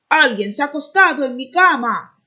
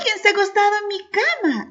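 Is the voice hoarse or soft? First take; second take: hoarse; soft. First: The voice is rough and hoarse. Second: The voice is soft and gentle. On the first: "dijo con voz ronca" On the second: "dijo también la mamá osa con voz suave"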